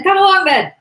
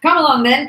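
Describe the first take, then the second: First: Very high, loud echo of the dare; second challenger's shout. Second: Loud, raised dare; first challenger's shout. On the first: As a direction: fling the challenge back even higher. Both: Acted. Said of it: "repeated one after the other".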